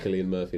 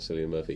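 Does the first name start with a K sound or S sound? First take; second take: K sound; S sound. First: The first name starts with a hard K sound. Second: The first name starts with a soft S sound. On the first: The speaker calls it right. "it's Cillian Murphy" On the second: The speaker calls it wrong. "not Cillian Murphy"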